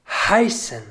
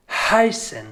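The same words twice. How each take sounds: The two takes are said the same way.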